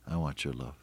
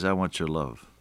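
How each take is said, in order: First: Much softer echo of the line; quieter repeat. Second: Said in the usual way. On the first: Acted. Preacher voicing Jesus to listeners, soft echo. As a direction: drop to a near hush on the repeat.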